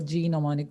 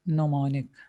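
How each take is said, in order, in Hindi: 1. यह शब्द कठोर G ध्वनि से शुरू होता है। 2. यह शब्द N ध्वनि से शुरू होता है। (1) "बहुत से लोग इसको G mnemonic भी कह देते हैं" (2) "but it's mnemonic. the G is silent"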